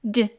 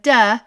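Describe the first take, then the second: First: The consonant is clipped with no vowel after it. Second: The consonant is followed by an added uh vowel. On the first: The speaker calls it right. "they're going to say "d,"" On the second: The speaker calls it wrong. "Instead of "duh,""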